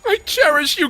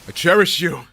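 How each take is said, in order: First: It is said in an exaggerated put-on character voice. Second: It is said in the speaker's normal voice.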